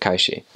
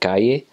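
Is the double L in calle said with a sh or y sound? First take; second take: sh; y. First: The double L sounds like a sh. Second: The double L sounds like a y. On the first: This is how it is said in Uruguay. "but in Uruguay they would pronounce that calle" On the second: This is how it is said in Mexico. "in Mexico, for example, people would pronounce that calle"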